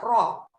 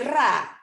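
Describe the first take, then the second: First: The vowel after the r is an o. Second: The vowel after the r is an a. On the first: This is how Saudi Arabians say it. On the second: This is how Egyptians say it. "Mesir tuh ro jadi jadi ra"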